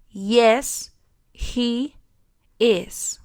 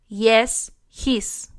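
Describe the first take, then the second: First: The pronoun and verb are said separately. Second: The pronoun and verb are contracted together. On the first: The speaker calls it right. "pronunciarlo sin contracción alguna" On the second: The speaker calls it wrong. "No puedo decir yes, his. Esto es incorrecto"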